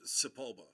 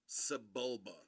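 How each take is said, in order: First: The middle consonant is a p sound. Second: The middle consonant is a b sound. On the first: The speaker calls it wrong. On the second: The speaker calls it right.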